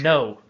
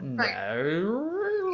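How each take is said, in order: First: The vowel is short and plain. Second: The vowel glides through many sounds, almost with an R. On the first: "we just say" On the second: "They go ... take it like crazy places"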